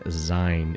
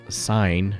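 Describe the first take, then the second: First: The word begins with a Z sound. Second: The word begins with an S sound. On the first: The speaker calls it wrong. "It's not with a Z" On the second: The speaker calls it right. "sign, I should say. It's not with a Z"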